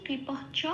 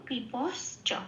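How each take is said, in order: First: "কৃপাশ্চ" as kripah-cha; h sound before the final "চ" of "কৃপাশ্চ"; visarga pronunciation. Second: "কৃপশ্চ" as kripas-cha; sibilant for visarga. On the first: Teacher breaking down the rule, visarga h in "কৃপাশ্চ". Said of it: "তালব্য শটা বিসর্গ হয়ে". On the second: Teacher showing the form for chanting, sibilant s-cha in "কৃপশ্চ". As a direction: keep a clear sibilant before "চ" in "কৃপশ্চ". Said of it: "এখানে বলবো". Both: Shown as a demonstration.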